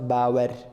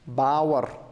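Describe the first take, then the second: First: The final r is said plainly, without extra force. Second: The final r is said with strong stress. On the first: The speaker calls it wrong. "It's not bawar" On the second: The speaker calls it right. "We have to add uh, stress on r"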